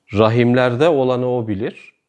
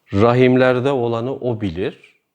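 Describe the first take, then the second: Both takes have the same delivery.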